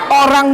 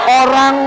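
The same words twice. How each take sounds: No difference in how they are said.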